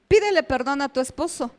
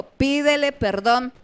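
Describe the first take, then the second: First: Said in the usual way. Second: "Pídele perdón" slow and drawn out; insistent command. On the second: Retold or imitated. God repeating the order to a reluctant wife, "Pídele perdón" slow and insistent.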